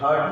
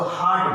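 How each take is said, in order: First: हर्ट with an "uh" vowel, like hurt; हर्ट with short vowel. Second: हार्ट with an open, long "aa" vowel. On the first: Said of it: "हर्ट नहीं बोलते हैं". (हर्ट, छोटे अ की आवाज़ के साथ) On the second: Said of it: "इसको हार्ट बोलते हैं". (हार्ट, लंबे आ की आवाज़ के साथ) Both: Shown as a demonstration.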